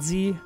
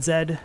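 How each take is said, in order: First: The letter is said as zee. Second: The letter is said as zed. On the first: The speaker calls it wrong. "not Z" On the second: The speaker calls it right. "I said Z"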